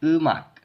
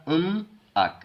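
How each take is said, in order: First: उ मक with m moved to the second syllable; linked reading. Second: उम अक split, m closing first syllable; उम, then अक starting on a vowel; wrong unlinked reading. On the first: Teacher repeats the correct way, linked उ मक. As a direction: open उ, then मक. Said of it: "ऐसे करके". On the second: Teacher shows how not to read it, unlinked उम अक. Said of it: "इसको ऐसे नहीं पढ़ना". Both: Shown as a demonstration.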